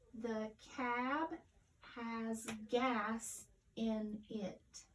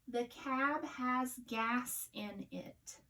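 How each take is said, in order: First: It is read slowly, word by word. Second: It is read smoothly and fluently.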